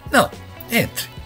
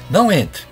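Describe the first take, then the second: First: There is a pause after 'não'. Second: The two words run together without a pause. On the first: Entering is allowed. "a outra é uma permissão" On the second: Entering is forbidden. "uma é proibição"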